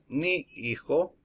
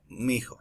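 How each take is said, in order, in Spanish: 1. Las dos palabras se dicen por separado. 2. Las dos palabras se unen como 'mijo'. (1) "En lugar de decir mi hijo" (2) "se menciona como mi hijo"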